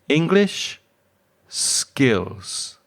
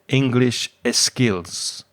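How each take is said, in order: First: The word starts directly with the s sound. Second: An extra e sound comes before the s. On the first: The speaker calls it right. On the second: The speaker calls it wrong. "you said"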